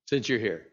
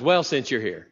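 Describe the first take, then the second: First: Quiet embarrassed afterthought; sheepish trailing repeat. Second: Said in the usual way. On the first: Acted. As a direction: lower and softer, trailing off resigned. Hanging man repeats, giving in.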